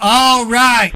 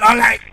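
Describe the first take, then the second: First: It is said slowly and calmly. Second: It is said very fast and rushed. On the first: The speaker calls it right. "slow down" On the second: The speaker calls it wrong. "Talk like you're on speed"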